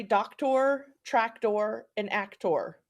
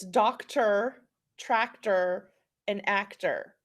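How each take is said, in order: First: "doctor", "tractor", "actor" each ending like "tore"; full OR in the last syllable of "doctor", "tractor", "actor". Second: "doctor", "tractor", "actor" each ending in "ter"; unaccented ER closing "doctor", "tractor", "actor"; reduced "er" endings. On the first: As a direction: say "doctor, tractor, and actor" as DOK-tor, TRAK-tor, AK-tor. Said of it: "you will hear people say". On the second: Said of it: "If we follow Saxon spelling rules". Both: Shown as a demonstration.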